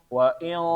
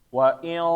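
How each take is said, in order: No difference in how they are said.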